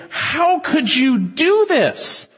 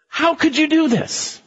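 First: High, very slow horrified question; aghast sailors. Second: High, slow horrified question; aghast at Jonah; high, drawn-out disbelief; frightened sailors. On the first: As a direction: stretch out their disbelief. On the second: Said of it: "men became extremely frightened". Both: Acted.

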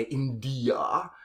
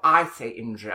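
First: India said the American way, IN-dee-uh with clear d; IN-dee-uh, three clear syllables. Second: Clipped-free IN-dja, d blending into j; posh India. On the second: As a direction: say India as the posh speaker does. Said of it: "I know that some Americans say India". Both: Shown as a demonstration.

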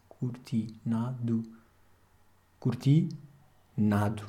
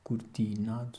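First: Slow "Cortinado" leaning on the penultimate "na"; slowly spelling out stress on "Cortinado". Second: Said in the usual way. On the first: Shown as a demonstration. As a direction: draw out "Cortinado", hitting the "na" syllable. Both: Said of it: "que é o penúltimo A".

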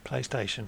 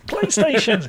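First: Said in the usual way. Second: High, exasperated pundit outburst; Chris Sutton. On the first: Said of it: "I was gonna do my". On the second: Acted. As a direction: squawk it like an outraged football pundit. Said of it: "my Chris Sutton voice then".

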